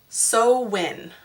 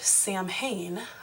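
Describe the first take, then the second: First: The word is said differently from its spelling. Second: The word is read out as it is spelled. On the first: This follows the pronunciation guide. The speaker calls it right. "it's Samhain, I believe" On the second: This is a first guess at the name. The speaker calls it wrong. "I would have said Samhain"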